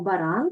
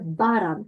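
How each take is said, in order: First: The stress is on the second syllable. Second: The stress is on the first syllable. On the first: This is how the word is stressed in Ukrainian. "ми кажемо баран" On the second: This is how the word is stressed in this language. "а тут буде баран"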